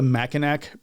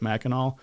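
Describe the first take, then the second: First: The word ends with a clear k sound. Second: The word ends without any k sound. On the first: It follows the spelling, which teases the locals. "because it's actually spelled that way" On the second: It is how the locals say it. "they pronounce it"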